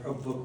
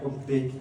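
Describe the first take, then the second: First: The word ends without an i vowel. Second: The word ends with an i vowel. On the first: The speaker calls it wrong. "I was saying حبك" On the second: The speaker calls it right. "it should be إلى حبك ... حبك مجرور"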